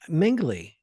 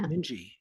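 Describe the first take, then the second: First: The name is said with an L sound. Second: The name is said without an L sound. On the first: The speaker calls it wrong. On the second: The speaker calls it right.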